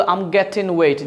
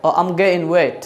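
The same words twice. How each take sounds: First: American "getting" as "gettin", t kept; American pronunciation. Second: British "getting" as "ge'in", no t; British pronunciation. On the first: Teacher showing how Americans say it, "getting" without g. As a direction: keep the t, drop the g in "getting". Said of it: "America বলে". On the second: Teacher showing how British people say it, "getting" as "ge'in". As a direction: swallow the t and g in "getting". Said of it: "In ব্রিটিশে কি বলে জানেন?". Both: Shown as a demonstration.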